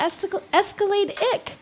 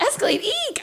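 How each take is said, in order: First: The ending is a short 'ick' sound. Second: The ending is a long 'eek' sound. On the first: "if you do the ick is how you pronounce it ending" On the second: "Is that Escalade eek? Yeah, that's no better"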